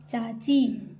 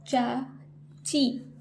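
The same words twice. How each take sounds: First: Said in the usual way. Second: चाची slowly as चा, pause, ची; split syllables. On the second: Shown as a demonstration. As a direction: sound out चाची in two parts. (चाची को तोड़कर, चा-ची) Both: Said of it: "जैसे मैं बोल रही हूँ".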